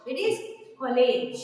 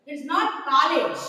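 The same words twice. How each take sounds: First: College said as KOL-ij, proper English; correct pronunciation. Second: College said the wrong Indian way; wrong pronunciation. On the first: Teacher corrects college for the class, proper pronunciation. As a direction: college the right standard way. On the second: Teacher shows students the wrong college, mispronounced. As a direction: college as the mistaken version. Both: Shown as a demonstration.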